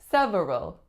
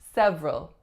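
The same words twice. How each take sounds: First: The word is said with three full syllables. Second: The word is said with only two syllables. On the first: The speaker calls it wrong. "looks, excuse me, that it should be several" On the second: The speaker calls it right. "we say several"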